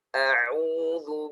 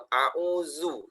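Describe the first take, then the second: First: The middle consonant is a soft 'th' sound. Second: The middle consonant is a 'z' sound. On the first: The speaker calls it right. "A hamzah dengan ainnya diperhatikan" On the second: The speaker calls it wrong. "dan zalnya dibaca uh"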